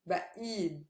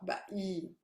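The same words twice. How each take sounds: First: No consonant comes between the two vowels. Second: A glottal stop comes between the vowels. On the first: "if you didn't have a ayn here" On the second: "if there was a stop"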